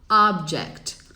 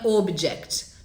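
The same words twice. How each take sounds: First: The first vowel is an open ah sound. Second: The first vowel is a rounded oh sound. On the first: The speaker calls it right. "O correto é a" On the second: The speaker calls it wrong. "não é o, o, o. Está incorreto o"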